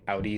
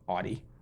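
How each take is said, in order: First: It uses the usual, standard pronunciation. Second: It uses a local New England pronunciation. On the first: "instead of saying Audi" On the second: "they say Audi"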